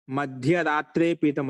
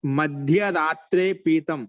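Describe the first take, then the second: First: Slow recitation. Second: Slow, deliberate chanting of మధ్యరాత్రే పీతం; slow classroom recitation. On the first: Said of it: "teacher repeats the example". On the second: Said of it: "teacher recites Sanskrit example". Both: Shown as a demonstration.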